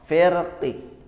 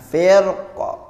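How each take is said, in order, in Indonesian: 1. Berakhir dengan vokal i yang lemah, setengah bersuara. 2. Berakhir dengan konsonan saja, dengan r yang tebal. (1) "dengan raum syaratnya qafnya itu dibaca setengah kasroh" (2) "Tebal jika qafnya disukunkan"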